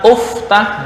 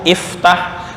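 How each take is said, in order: First: The word begins with a u vowel. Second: The word begins with an i vowel. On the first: The speaker calls it wrong. "atau dibaca uftah, nggak boleh" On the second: The speaker calls it right. "Fataha yaftahu, iftah"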